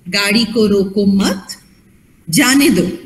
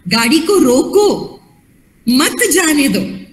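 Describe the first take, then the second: First: The pause comes after 'मत'. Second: The pause comes before 'मत'.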